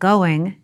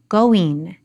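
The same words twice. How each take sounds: First: The ending is a standard 'ing' sound. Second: The ending sounds closer to 'een'.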